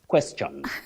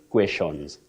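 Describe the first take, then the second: First: It uses the recommended pronunciation. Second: It uses the commonly heard pronunciation. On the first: The speaker calls it right. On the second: The speaker calls it wrong.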